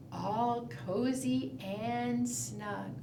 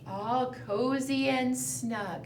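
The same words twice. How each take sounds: First: Softer, slower, sleepy storytime voice; hushed bedtime murmur. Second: Said in the usual way. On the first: Shown as a demonstration. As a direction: let it fade like a lullaby. Bear sleeps, second round.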